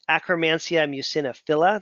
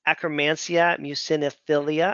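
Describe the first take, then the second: First: The last word ends with the sound 'phila'. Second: The last word ends with the sound 'philia'. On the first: The speaker calls it right. "that's probably a better way to pronounce it" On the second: The speaker calls it wrong. "I always say philia"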